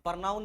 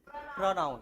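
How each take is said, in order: First: The first syllable sounds like 'par'. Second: The first syllable sounds like 'pro'. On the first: The speaker calls it wrong. "परनाउन नहीं" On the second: The speaker calls it right.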